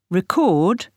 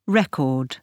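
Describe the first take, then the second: First: "Record" with the weight on CORD; verb stress. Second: "record" with the weight on RE; noun stress. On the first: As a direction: stress on the second syllable, reCORD. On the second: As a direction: stress on the first syllable, REcord. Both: Shown as a demonstration. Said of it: "the stress can move".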